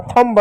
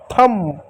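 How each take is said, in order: First: थंब with the b sounded, "thumb-ba"; wrong way with b. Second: थंब said softer as "thum", b silent. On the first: Teacher showing students the wrong reading, b sounded. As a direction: say थंब pronouncing the b. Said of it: "थंब नहीं". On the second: Teacher giving the correct reading to children, silent b. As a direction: say थंब ending on m, no b. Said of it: "थंब होता है". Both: Shown as a demonstration.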